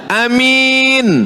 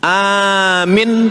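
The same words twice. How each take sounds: First: The first vowel is short, the second long. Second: The first vowel is long, the second short. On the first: Trustworthy. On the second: Believe it.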